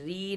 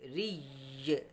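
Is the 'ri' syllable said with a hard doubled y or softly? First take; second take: soft; hard. First: The syllable is soft, with no doubled y. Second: The syllable is hard, with a doubled y. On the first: The speaker calls it wrong. "री नहीं पढ़ेंगे" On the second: The speaker calls it right. "बल्कि रा या ज़ेर रिय रिय सख्ती के साथ पढ़ेंगे"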